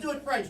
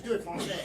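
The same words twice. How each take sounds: First: Said in the usual way. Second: "Francais" said the French way; French pronunciation. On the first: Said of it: "do it Francais". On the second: Shown as a demonstration. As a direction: say "Francais" as a French word, not English. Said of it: "don't just do it French".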